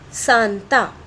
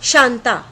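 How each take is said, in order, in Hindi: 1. नाम की शुरुआत s ध्वनि से होती है। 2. नाम की शुरुआत sh ध्वनि से होती है। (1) "श के स्थान पर क्या बोला, स" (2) "किसी का नाम है शांता"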